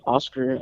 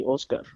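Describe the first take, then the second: First: "Oscar" as AH-sker, English r; flat English vowels in "Oscar"; English pronunciation. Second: "Oscar" as OHS-kar; Spanish pronunciation. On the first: Showing how not to say it, English "Oscar". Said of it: "I don't say Oscar". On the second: Showing the Spanish way of saying "Oscar". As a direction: round the O of "Oscar", Spanish style. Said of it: "I say it in Spanish". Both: Shown as a demonstration.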